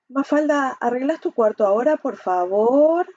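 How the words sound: It sounds fearful and hesitant, slightly sarcastic.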